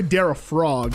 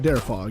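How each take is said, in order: First: The name ends in frog, with an r. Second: The name ends in fog, without an r. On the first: The speaker calls it wrong. "I always want to say Darafrog, but no" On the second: The speaker calls it right. "it's Fog"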